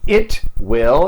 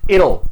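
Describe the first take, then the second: First: Will is said as a full separate word. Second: Will is shortened and joined to the pronoun.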